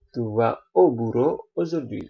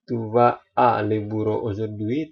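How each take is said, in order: First: 'À le' merges into the single sound 'o'. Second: 'À le' is said as two separate words. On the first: The speaker calls it right. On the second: The speaker calls it wrong.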